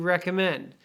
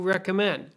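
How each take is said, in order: Both takes have the same delivery.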